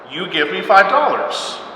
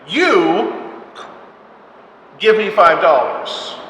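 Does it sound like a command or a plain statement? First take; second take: statement; command. First: It sounds like a plain factual statement. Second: It sounds like a firm demanding command.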